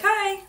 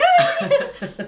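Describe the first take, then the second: First: High-pitched little "Hi"; rehearsed greeting. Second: Very high, loud, giggling "Hi"; exaggerated high-pitched hello, breaking into laughter; mock squeaky greeting. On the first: Shown as a demonstration. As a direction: try out a high "Hi" without the squeal. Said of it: "I'll be like". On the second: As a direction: squeal "Hi" as a silly self-imitation. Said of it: "I don't talk like that".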